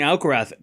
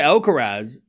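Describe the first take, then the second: First: The name is said with a Spanish pronunciation. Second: The name is said with an English pronunciation. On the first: "pronounce it the Spanish way" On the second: "so I say Alcaraz"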